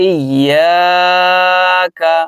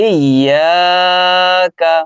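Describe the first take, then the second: Both takes have the same delivery.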